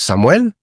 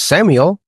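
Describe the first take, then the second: First: The name is said with Spanish pronunciation. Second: The name is said with English pronunciation. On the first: "In Spanish, it's" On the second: "Like in English, it's"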